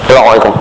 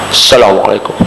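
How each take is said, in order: First: It is said with the lips pressed together. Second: It is said without smiling, blurring the s. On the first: "Cuba kebam bibir tengok bagi salam" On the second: "Cuba bagi salam tak usah senyum"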